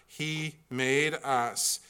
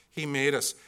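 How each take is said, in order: First: "made" drawn out, slow and weighty; slow deliberate emphasis; slow stress on made. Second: Said in the usual way. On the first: Shown as a demonstration. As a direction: lean hard on "made". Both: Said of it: "repeated for emphasis".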